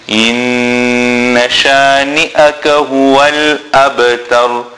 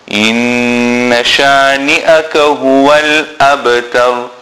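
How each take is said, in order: The two takes are said the same way.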